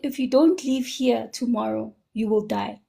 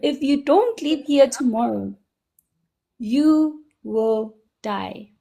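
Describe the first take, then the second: First: It is said at a normal, quieter volume. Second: It is said more loudly.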